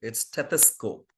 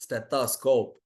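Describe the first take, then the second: First: Stethoscope with a short clipped first E; correct short vowel. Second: Stethoscope with a long first vowel; childhood wrong way. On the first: Teacher giving the corrected word. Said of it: "It's not stethoscope". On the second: Teacher recalling how she said it as a child. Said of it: "That's how I have played during my childhood". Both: Shown as a demonstration.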